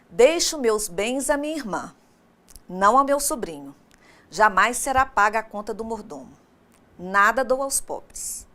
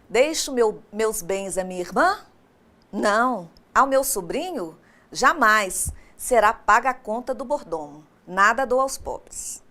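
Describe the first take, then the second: First: The pause comes before 'jamais', not after it. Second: The pause comes after 'jamais', not before it.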